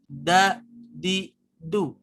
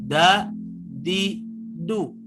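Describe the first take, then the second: No difference in how they are said.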